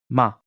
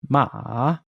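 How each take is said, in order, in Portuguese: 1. A sílaba é dita com o quinto tom. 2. A sílaba é dita com o terceiro tom. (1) "quinto tom"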